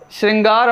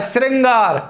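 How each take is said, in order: First: श्रृंगार begun with sh, shringār; correct pronunciation. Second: श्रृंगार begun with s, sringār; wrong pronunciation. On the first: Teacher giving the correct word, correct pronunciation. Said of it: "हमारे शुद्ध शब्द में आएगा". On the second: Teacher quoting an often asked word, wrong pronunciation. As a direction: say श्रृंगार as SRIN-gaar. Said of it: "श्रृंगार हमारे शुद्ध शब्द में आएगा". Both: Shown as a demonstration.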